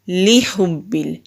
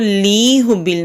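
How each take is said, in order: First: The first syllable is said quickly and short. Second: The first syllable is drawn out long. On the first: The speaker calls it right. "लाम को जल्दी पढ़ेंगे" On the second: The speaker calls it wrong. "इसको ली हुब्बिल नहीं करेंगे"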